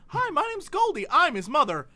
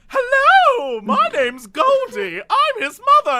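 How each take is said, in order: First: It imitates the real mother's original voice. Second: It imitates the replacement voice actress's voice.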